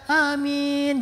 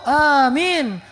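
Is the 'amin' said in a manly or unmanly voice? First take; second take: unmanly; manly. First: It is said in a weak, unmanly voice. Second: It is said in a strong, manly voice.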